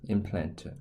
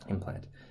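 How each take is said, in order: First: The word is said with Korean sounds and syllables. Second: The word is said with English sounds and syllables. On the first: "if I pronounce this in Korean, it would say" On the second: "that's just implant"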